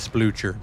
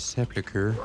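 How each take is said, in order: First: The word is squashed, dropping a syllable. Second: The word is said with all its syllables. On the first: The speaker calls it wrong. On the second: The speaker calls it right.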